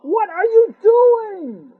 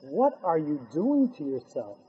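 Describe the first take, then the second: First: Much higher, louder, very slow cry; anguished outcry. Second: Softer and lower, pained and almost hushed; soft pained question. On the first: Hashem cries out to his holy people, slow and loud. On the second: Hashem softly asks his people what they are doing. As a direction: ask it gently, heartbroken. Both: Acted. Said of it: "Hashem says".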